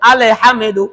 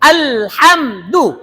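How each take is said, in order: First: Consonants are released loosely with extra vowels added. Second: Consonants are held firmly with no extra vowels. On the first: The speaker calls it wrong. "যদি কোন মতে ধরি" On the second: The speaker calls it right. "শক্ত"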